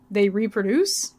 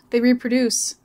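First: Slow "They reproduce" with the pitch climbing at the end; questioning echo. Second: Said in the usual way. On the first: A narrator's reading. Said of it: "asked Gloria". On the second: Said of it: "he said".

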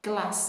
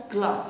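First: Said in the usual way. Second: British "glass" with a broad, long ah; British accent. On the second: Shown as a demonstration. (تلفظ بریتیش glass با آی کشیده)

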